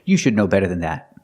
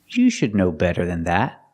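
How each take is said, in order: First: The sentence is said at normal speed. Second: The sentence is said slowly.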